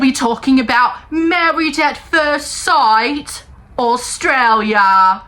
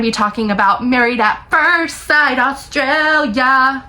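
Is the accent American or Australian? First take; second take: Australian; American. First: It is said in an Australian accent. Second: It is said in her usual accent.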